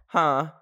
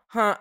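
First: Said in the usual way. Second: A light high "Huh?" like Pinky Doll; Pinky Doll impression. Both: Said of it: "I sounded like Pinky Doll there".

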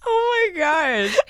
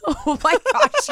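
First: Higher, slow near-crying laugh; laughing oh my gosh. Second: High, slow squeal through laughter; laughing oh my gosh. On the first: Still cracking up at the answer, a near-tearful laugh. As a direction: laugh it out until nearly crying. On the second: Laughing at her friend's answer, a high squealing laugh. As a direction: squeal it while cracking up. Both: Real, not acted.

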